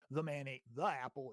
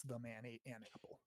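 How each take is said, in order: First: "the" before "apple" singled out as the wrong article; stress on THE. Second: Softer, falling line that sets "an" apart; stress on AN. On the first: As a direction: lean on the second "the" before "apple". Contrasts definite with indefinite article. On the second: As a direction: offer "an" before "apple" as the casual correction. Corrected take with indefinite article. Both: Shown as a demonstration.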